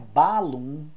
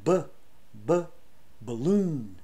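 First: The first vowel is a full 'a' sound. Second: The first vowel is a reduced schwa sound. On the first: The speaker calls it wrong. "não é balloon" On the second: The speaker calls it right. "é balloon"

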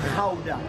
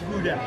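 First: The word is said with a Dutch pronunciation. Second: The word is said with an English pronunciation. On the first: The speaker calls it right. "The guys in Holland will call it Gouda" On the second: The speaker calls it wrong. "not Gouda"

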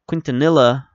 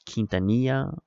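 First: The name is said with an American English pronunciation. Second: The name is said with a Spanish pronunciation. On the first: The player is treated as American. "I think that's how he pronounced it, because he's a very American-looking dude" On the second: The player is treated as Mexican. "if he was, like, you know, Mexican or something like that, I might pronounce it Quintanilla"

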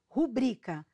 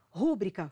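First: The stress is on the second syllable. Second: The stress is on the first syllable. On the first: The speaker calls it right. "Qual é o correto?" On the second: The speaker calls it wrong. "forma incorreta"

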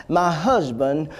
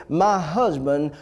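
No difference in how they are said.

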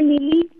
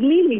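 First: The stress is on the last syllable. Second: The stress is on the first syllable. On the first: The speaker calls it wrong. "Dice Lili" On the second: The speaker calls it right. "mi nombre no lleva acento"

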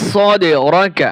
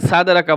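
First: The first consonant is a heavy s sound. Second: The first consonant is a thin s sound. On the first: The speaker calls it right. "এখানে খেয়াল করবেন স মোটা হরফ" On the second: The speaker calls it wrong. "পাতলা সা না বলা যাবে না, সাদে রাকা বলা যাবে না"

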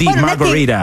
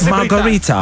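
First: American accent, the t sounds like a d. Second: British accent, with a crisp t sound. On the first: "La pronuncia americana, la T la rende tecnicamente una D" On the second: "l'opzione inglese britannico"

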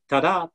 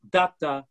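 First: The stress falls on the second syllable. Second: The stress falls on the first syllable. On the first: This is the iambic meter of most dialogue. "So the trochaic is the opposite of an iambic pattern. It's instead of ta-da" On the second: This is the trochaic meter the witches use. "The stress is first, and the unstressed syllable is after"

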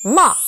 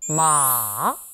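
First: It starts sharply and drops, short. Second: It goes down slowly in a long sound. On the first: "사성은 어, 짧게 첫음을 탁 쳐주는 느낌" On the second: "삼성은 쭉 길게 내려옵니다"

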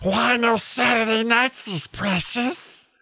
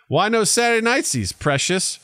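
First: It is said in a strong Gollum-like creature voice. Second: The put-on creature voice is weak or missing. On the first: The speaker calls it right. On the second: The speaker calls it wrong.

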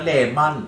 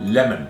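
First: It is said with a Thai accent. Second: It is said with a native English accent. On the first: This is how to say it when talking with Thai people. "คุยกับคนไทยก็" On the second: This is how to say it when talking with Westerners. "ฝรั่งเป็น"

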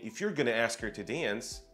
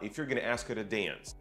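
First: The t in 'to' is a clear t. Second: The t in 'to' is a soft flap. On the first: "То есть не" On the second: "Там используется flap t"

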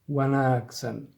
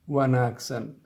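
Both takes have the same delivery.

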